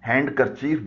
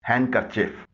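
First: The d sound is pronounced. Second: The d sound is silent. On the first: The speaker calls it wrong. "इसे आमतौर पर हैंडकरचीफ बोला जाता है।" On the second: The speaker calls it right. "इसमें दरअसल डी खामोश है। सही तलफ़ुज़ है"

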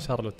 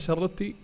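First: The name ends on the t, no final vowel. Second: The name ends with an added ee vowel. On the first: This is the name's proper form. "الاي هذا ما ينطق" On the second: This is a personal pet form of the name. "انا اقولها شارلوتي لانها حقي"

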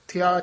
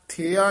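First: The word is said quickly and clipped. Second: The word is said slowly and drawn out. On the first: The speaker calls it right. "ਛੇਤੀ ਬੋਲ ਦੇਣਾ" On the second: The speaker calls it wrong. "ਥਿਆ ਨਹੀਂ ਕਹਿਣਾ"

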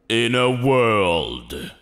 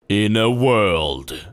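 First: It is said in a dramatic voice. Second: It is said in a plain voice.

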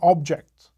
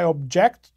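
First: The stress is on the first syllable. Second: The stress is on the second syllable. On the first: It is a noun: a thing. "I retrieve the object from the room" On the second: It is a verb: to protest against something. "I object to something"

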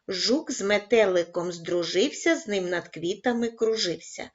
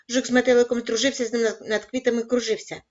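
First: It is read at a slow pace. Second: It is read at a very fast pace. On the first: "кожного разу пришвидшуючи темп" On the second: "кожного разу пришвидшуючи темп"

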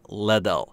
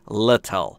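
First: The middle t is a soft nasal d. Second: The middle t is a crisp t sound. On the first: "اگه میخواید امریکنش بکنید" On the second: "انگلیسی معیار و انگلیسی استاندارد آموزشی"

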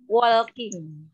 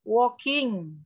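First: The L sound is pronounced. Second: The L sound is silent. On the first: The speaker calls it wrong. "bukan walking ya" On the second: The speaker calls it right. "Walkie talkie tanpa L"

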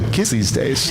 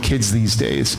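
First: It sounds proud and admiring. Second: It sounds disapproving and worried. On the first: Young people today are doing impressive things. "we say it with a little bit different of an of inflection" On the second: Young people today are a cause for concern. "the public wrings their hands in, in the United States and says, "Oh"

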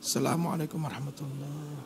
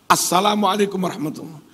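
First: The opening 'as' sound is dropped or unclear. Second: The opening 'as' sound is clearly pronounced. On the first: The speaker calls it wrong. "Tapi banyak imam agak ngantuk" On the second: The speaker calls it right.

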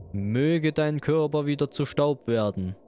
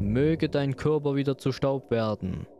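No difference in how they are said.

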